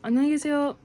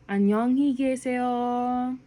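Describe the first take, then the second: First: It is said fast. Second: It is said slowly.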